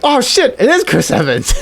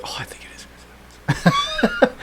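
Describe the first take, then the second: First: Excited realization. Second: Whispered hunch; hushed guess. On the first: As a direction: burst out as it clicks. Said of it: "And you're like". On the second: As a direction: breathe it out under your breath. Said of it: "You're like". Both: Retold or imitated.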